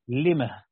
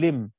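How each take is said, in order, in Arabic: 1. تنتهي الكلمة بصوت هاء خفيف. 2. تنتهي الكلمة بالميم بدون هاء. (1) "يعني بهاء السكت" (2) "في القرآن ما فيش هاء"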